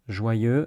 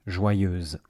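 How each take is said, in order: First: Joyeux ending open, no z sound. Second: Joyeuse ending on a buzzing z sound. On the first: Teacher contrasts Joyeux with joyeuse, open ending. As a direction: say Joyeux with no final consonant. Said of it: "same pronunciation as joyeux". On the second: Teacher contrasts Joyeuse with joyeux, z added. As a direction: add a clear z to close Joyeuse. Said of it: "but with a Z sound at the end". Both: Shown as a demonstration.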